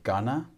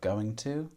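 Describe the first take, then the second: First: The words are reduced and run together. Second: The words are said fully and separately.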